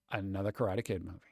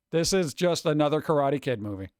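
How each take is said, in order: First: Much lower and softer, quick deadpan mutter; dry, muttered repeat. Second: Said in the usual way. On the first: Real, not acted. To the chat, grumbling about another Karate Kid film, low deadpan mutter. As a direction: mutter it under your breath, unimpressed.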